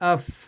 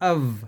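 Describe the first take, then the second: First: The word ends with an f sound. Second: The word ends with a v sound. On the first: "इसको अफ भी पढ़ते हैं, फे की आवाज भी निकलती है" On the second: "वाव की आवाज भी निकलती है"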